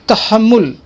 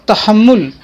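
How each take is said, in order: No difference in how they are said.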